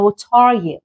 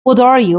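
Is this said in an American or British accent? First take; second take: British; American. First: British accent, with a clear t and silent r. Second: American accent, with the t sounding like d. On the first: "توی لهجه بریتیش اینو میخونه" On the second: "توی لهجه امریکن این تی شبیه د تلفظ میشه"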